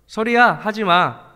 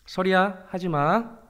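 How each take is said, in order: First: It is said more loudly and firmly. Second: It is said softly and gently. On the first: The request was ignored, so it is repeated more forcefully. "그래서 조금 더 크게 말하게 되죠" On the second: The first request is made kindly. "제가 처음엔 좋게 말합니다"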